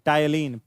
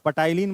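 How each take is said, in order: First: The word begins directly with a T sound. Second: The word begins with an audible P sound. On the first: The speaker calls it right. "पी silent है" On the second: The speaker calls it wrong. "पटाइलिन मत पढ़िएगा"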